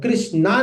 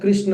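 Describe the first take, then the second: First: The word ends with a long aa vowel. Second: The word ends with a short a vowel. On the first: The speaker calls it wrong. "कृष्णा नहीं होता है" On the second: The speaker calls it right. "कृष्ण होता है"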